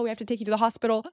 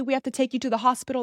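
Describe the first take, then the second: First: Rattled off very fast; faster repeat. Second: Fast, insistent higher urging; urgent mom. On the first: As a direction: repeat it rushed. Mom repeating insistence. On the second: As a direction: rush the order, worried. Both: Retold or imitated.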